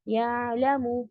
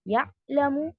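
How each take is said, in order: First: The 'ayn is partly stopped and partly flowing. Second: The 'ayn is fully stopped in the throat. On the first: The speaker calls it right. "शिद्दा भी नहीं है, या रिखावा भी नहीं है, दरमियान में है" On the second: The speaker calls it wrong. "ये जो है आपने शिद्दा की सिफत दे दी"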